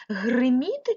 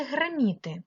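First: Гриміти with a clear и in гри; Гриміти, first vowel и rather than е. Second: Гриміти said with е, as греміти; гриміти with first vowel turned to е. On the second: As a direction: say гре at the start of гриміти. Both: Shown as a demonstration. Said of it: "голосними е чи и".

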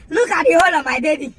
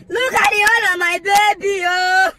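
First: Said in the usual way. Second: Mock wailing. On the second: Car owner mourning the hole on the car, wailing. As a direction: wail it as if bereaved. Repeated as wail over damaged car.

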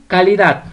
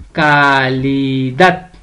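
First: Said in the usual way. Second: "calidad" very slow and low, ca-li-DAD, stress on "dad"; split into syllables. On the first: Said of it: "usted la va a separar". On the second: Shown as a demonstration. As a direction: stretch each syllable of "calidad", landing on "dad". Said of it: "la sílaba tónica es dat". ("calidad" muy lenta, sílaba por sílaba, con fuerza en "dad")

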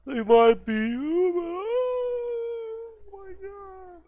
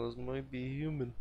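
First: Slow, loud, much higher mock dread; mock-spooked drawn-out wail; hammed-up horror. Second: Said in the usual way. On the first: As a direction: stretch it out like a horror movie gasp. Eerie repeat of the phrase.

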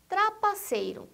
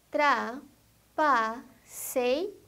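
First: Said in the usual way. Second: "trapaceiro" very slowly as tra, pa, cei, ro; four separate beats in "trapaceiro"; syllable by syllable. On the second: Shown as a demonstration. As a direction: pause after each syllable of "trapaceiro". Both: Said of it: "quatro ou mais sílabas".

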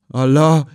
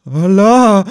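First: A first startled Allah, raised a little; the old man's first frightened gasp of Allah; startled cry. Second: Higher, louder terrified Allah; the old man's second, louder cry of Allah; frightened cry. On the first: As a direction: catch the shock starting. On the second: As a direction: cry out as lightning struck near you. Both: A narrator's reading. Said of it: "rief er erschrocken aus".

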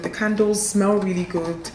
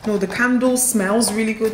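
First: Said in the usual way. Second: "candle" said singular and leaned on; correcting "candles" to "candle"; stressed singular "candle" fixing a slip. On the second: Shown as a demonstration. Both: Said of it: "not candles".

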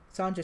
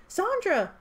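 First: Said in the usual way. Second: High, loud cry of the name; cried out. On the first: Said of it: "Sandra screamed". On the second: A narrator's reading. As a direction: call out in alarm. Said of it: "Lampire cried".

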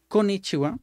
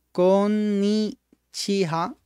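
First: Said in the usual way. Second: "Konnichiwa" very slowly, every syllable stretched, pitched high. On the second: Shown as a demonstration. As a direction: draw out "Konnichiwa" for learners. Teacher repeats word very slowly.

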